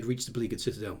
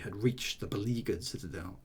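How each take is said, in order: First: The line is read very quickly. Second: The line is read slowly and measured. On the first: "That's way too fast" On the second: "you've got to measure it"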